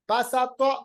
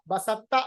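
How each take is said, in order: First: The t sound is heavy with rounded lips. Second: The t sound is light with unrounded lips. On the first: The speaker calls it right. "तो को पढ़ते वक्त होंठों को गोल कीजिएगा" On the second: The speaker calls it wrong. "बसत्ता नहीं"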